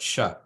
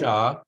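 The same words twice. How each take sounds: First: The vowel is kept short. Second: The vowel is held long. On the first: The speaker calls it right. "that's a short a" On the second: The speaker calls it wrong.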